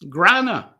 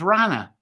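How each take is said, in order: First: The word begins with a g sound. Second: The word begins with an r sound. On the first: This is how it was said elsewhere. "elsewhere, this word seems to have been pronounced" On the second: This is the modern pronunciation. "in modern language there, and it's pronounced as rana"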